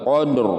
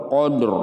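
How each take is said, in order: Both takes have the same delivery.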